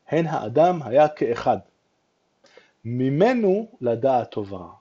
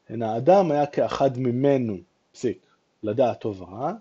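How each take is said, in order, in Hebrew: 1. ההפסקה באה אחרי המילה 'ke'achad'. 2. ההפסקה באה אחרי המילה 'mimenu'. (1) "הרמב"ם שם את הפסיק במקום אחר לגמרי" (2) "אם אנחנו רגילים לקרוא את הפסוק ככה"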